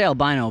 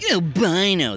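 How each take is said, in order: First: The word is said in a plain, neutral tone. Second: The word is said in a mocking tone. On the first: The word is used as a neutral description. The speaker calls it right. "you can say albino" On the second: The word is used as an insult. The speaker calls it wrong. "that's like when it's bad"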